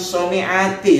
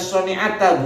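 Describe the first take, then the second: First: The word ends with an 'i' vowel. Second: The word ends with an 'a' vowel. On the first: The speaker calls it wrong. "bukan soni'ati" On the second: The speaker calls it right. "dibaca soni'ata bukan soni'ati ya Ustaz"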